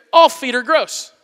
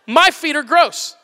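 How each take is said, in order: First: All leaned on, slow and deliberate; slowly, with the weight on all; stress on all. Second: My leaned on, slow and deliberate; slowly, with the weight on My; stress on My. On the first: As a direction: hit all, then draw out feet are gross. Emphatic point about feet. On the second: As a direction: hit My, then draw out feet are gross. Emphatic point about own feet. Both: Shown as a demonstration.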